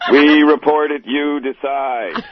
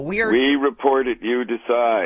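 First: It is said with lively, spunky energy. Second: It is said in a plain, ordinary way.

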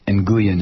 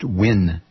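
First: The name is said following its literal spelling. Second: The name is said like the English word win. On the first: The speaker calls it wrong. "it is not pronounced Nguyen" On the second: The speaker calls it right. "it's pronounced Win"

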